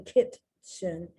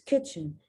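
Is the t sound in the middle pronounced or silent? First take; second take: pronounced; silent. First: A t sound is pronounced in the middle. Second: No t sound is pronounced in the middle. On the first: The speaker calls it wrong. "You don't say kitchen" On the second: The speaker calls it right. "The T is not even there as a hint"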